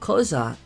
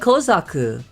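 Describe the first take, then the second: First: The name ends on the k sound. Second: The name ends with an added u vowel. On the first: The speaker calls it right. "the U is silent" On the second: The speaker calls it wrong. "Always said Kozaku"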